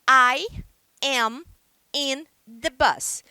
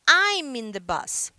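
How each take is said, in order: First: I and am are said as separate words. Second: I and am merge into one quicker syllable. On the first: "Eu poderia dizer" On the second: "Ou eu posso falar mais rápido"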